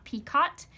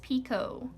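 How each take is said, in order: First: The final T is clearly pronounced. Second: The final T is left silent. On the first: The speaker calls it wrong. "It is not picot" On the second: The speaker calls it right. "so we do not pronounce the T"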